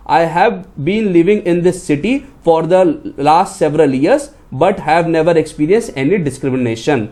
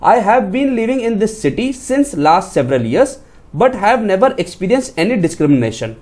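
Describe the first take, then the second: First: Slow reading of the corrected sentence. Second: Slow reading of the wrong sentence. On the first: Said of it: "तो आपका statement कैसा बनता". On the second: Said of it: "जैसे मैं आपको यहाँ पे बताता हूँ". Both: Shown as a demonstration.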